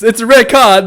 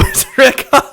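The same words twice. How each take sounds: First: Said in the usual way. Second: Laughing while imitating the official; mock verdict, cracking up; laughing through it. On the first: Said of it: "he goes". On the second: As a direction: break into a laugh on the words.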